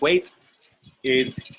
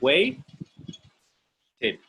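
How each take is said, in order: First: The ending is a separate vowel-started syllable. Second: The final consonant links into the ending syllable. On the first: The speaker calls it wrong. "I don't say wait id" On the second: The speaker calls it right. "I say wait did"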